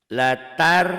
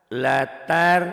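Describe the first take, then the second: Both takes have the same delivery.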